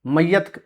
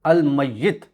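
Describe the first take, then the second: First: मय्यत said the Urdu way, short "a" in the last syllable: may-yat; Urdu pronunciation. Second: अल मय्यित with a clear "i" in the last syllable: al may-yit; Arabic pronunciation. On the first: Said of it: "हम इसको उर्दू ज़ुबान में". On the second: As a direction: give मय्यित the Arabic -yit ending, not Urdu -yat. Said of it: "लेकिन अरबी के अंदर". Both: Shown as a demonstration.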